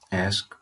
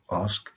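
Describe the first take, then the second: First: The word is said in a non-British accent. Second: The word is said in a British accent.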